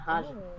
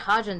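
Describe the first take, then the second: First: The G sound is not pronounced. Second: The G sound is clearly pronounced. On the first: "not Hagen" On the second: "Like we pronounce the G"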